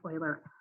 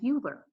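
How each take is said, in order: First: The name is said in its standard established way. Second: The name is said the way its spelling suggests. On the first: This is how experts say it. "It is actually pronounced Euler" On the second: This is how one reads it privately. "when I say this and I read it and I think of it in my head, I say Euler"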